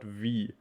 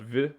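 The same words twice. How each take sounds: First: The vowel is long. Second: The vowel is short. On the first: The speaker calls it right. "we always pronounce it like a very long I" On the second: The speaker calls it wrong. "So not V"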